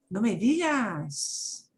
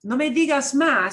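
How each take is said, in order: First: Slow, drawn-out surprise; amazed. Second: Firm, final, conversation closed; dismissive. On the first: Teacher demoing amazed reaction, slow and drawn out. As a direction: savour the news, impressed. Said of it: "in a very different tone of voice". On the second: Teacher closing a topic, firm and final. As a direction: shut the topic down firmly. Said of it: "in that tone of voice". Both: Shown as a demonstration.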